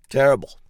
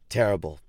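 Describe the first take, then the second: First: Terrible blurted loud and higher; exaggerated emphasis. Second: Said in the usual way. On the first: Ranting about a tragedy, terrible shouted higher and louder. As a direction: punch terrible hard. Repeated word, second much bigger.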